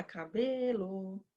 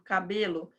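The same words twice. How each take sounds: First: Cabelo, soft and slow, with BE stretched; hushed sing-song call of Cabelo, long BE; silent-thought calling. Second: Said in the usual way. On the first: Acted. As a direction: quietly sing Cabelo as if thinking it, holding BE. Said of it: "a criança já vai pensar". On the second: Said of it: "quando você coloca lá".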